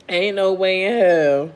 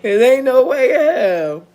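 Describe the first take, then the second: First: Said in the usual way. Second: Louder and higher, insisting; higher, louder ain't no way in hell; emphatic. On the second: Real, not acted. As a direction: declare it loud.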